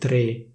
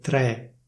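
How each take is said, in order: First: The E vowel is closed. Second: The E vowel is open. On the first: This is the standard pronunciation. "secondo la pronuncia ufficiale" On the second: This is how it is said in Milan. "Invece a Milano si dice"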